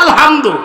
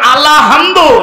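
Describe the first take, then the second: First: It goes straight from 'al' into 'hamdu'. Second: An extra 'la' sound comes after 'al'. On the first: The speaker calls it right. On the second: The speaker calls it wrong.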